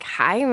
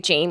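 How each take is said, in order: First: The name is pronounced the Spanish way, like 'HI-meh'. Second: The name is pronounced the English way, like 'JAY-mee'. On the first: "I majored in Spanish. So I saw your email and I was like" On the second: "Like most people would just say"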